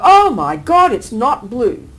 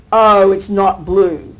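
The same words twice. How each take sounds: First: Sudden shocked exclamation. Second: Slow, drawn-out and settled; slow dawning acceptance; calm realisation. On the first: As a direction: blurt it out as if stunned. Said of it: "You'll get the shock of your life". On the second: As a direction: let it sink in calmly. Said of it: "then you'd calm down". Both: Retold or imitated.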